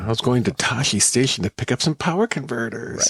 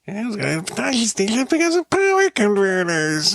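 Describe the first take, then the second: First: The line is said without much of a whine. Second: The line is said in a strongly whiny voice. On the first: The speaker calls it wrong. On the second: The speaker calls it right.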